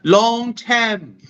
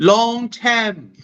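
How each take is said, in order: First: It is said with a Malaysian accent. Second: It is said with a Malaysian accent.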